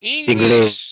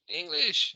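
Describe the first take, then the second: First: English shouted out loud and low, pitched well below the line before; emphatic shout. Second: Said in the usual way. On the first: Real, not acted. Teacher confirming the class's answer, shouting it out. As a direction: boom the word English at the class.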